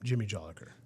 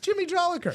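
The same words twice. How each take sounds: First: The name is said flatly, without joy. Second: The name is said brightly, with a smile. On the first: The speaker calls it wrong. "You can't say it like" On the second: The speaker calls it right. "No, it's"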